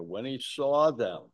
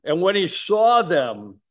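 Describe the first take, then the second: First: Said in the usual way. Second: "saw" lifted and louder, slightly raised pitch; stress on saw. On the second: Shown as a demonstration. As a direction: lean on "saw", first reading. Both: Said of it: "note the compassion of Christ here".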